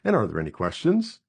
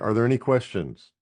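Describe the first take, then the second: First: The voice rises at the end. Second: The voice falls at the end.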